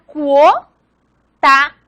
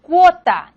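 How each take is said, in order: First: "cuota" as cuo, long pause, ta, louder; "cuota" in two loud, separate syllables; syllable division. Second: Said in the usual way. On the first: Shown as a demonstration. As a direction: split "cuota" in two, first part rising. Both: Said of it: "si fuera a separar".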